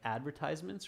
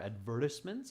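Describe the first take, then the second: First: The word is said the American way. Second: The word is said the British way.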